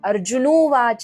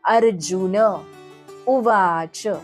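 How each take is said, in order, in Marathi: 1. दोन शब्द o आवाजासह एकत्र होतात. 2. u च्या आधी n चा पूर्ण उच्चार होतो. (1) "असं नाहीये ते" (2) "न चा पूर्ण उच्चार करायचा आहे"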